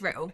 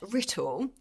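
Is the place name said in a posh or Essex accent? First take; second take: Essex; posh. First: It is said in an Essex accent. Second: It is said in a posh accent.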